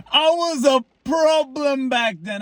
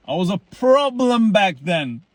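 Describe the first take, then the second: First: Higher, slow, drawn-out boast; playful boast. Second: Said in the usual way. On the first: Shown as a demonstration. To viewers, bragging about his younger self, drawn out and higher. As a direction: stretch it out like a proud confession. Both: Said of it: "repeated line, second bigger".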